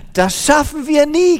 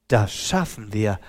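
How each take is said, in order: First: High, loud despairing complaint; lamenting. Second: Low, soft and steady; calm reassurance. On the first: Tired woman complains to her helper in despair. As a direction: cry out that it is hopeless. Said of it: "klagte die Frau". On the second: The helper calmly reassures the despairing woman. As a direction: reassure her quietly. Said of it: "sagte der andere". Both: A narrator's reading.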